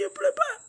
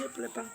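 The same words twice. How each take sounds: First: High, tearful insistence that she isn't crying; crying denial. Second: Said in the usual way. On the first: Real, not acted. Mother telling the nurse she isn't crying, sobbing. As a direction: protest through sobs. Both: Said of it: "Elle dit, pourquoi tu pleures".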